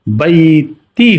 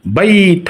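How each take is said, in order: First: বাইতি with a final ই added; wrong ending. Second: বাইত ending cleanly on ত, no final vowel; correct stop. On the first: Teacher showing the wrong way to stop on the word, mispronounced. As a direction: say বাইতি with the extra ই vowel at the end. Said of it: "হবে না". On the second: Teacher giving the right way to stop on the word, correct pronunciation. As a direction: clip বাইত off at the ত. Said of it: "বাইত হবে". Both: Shown as a demonstration.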